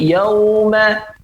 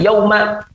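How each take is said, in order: First: The diphthong is slightly lengthened and soft. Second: The diphthong is short and clipped. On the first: The speaker calls it right. "tapi yauma ... ada panjang sedikit" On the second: The speaker calls it wrong. "Bukan yauma"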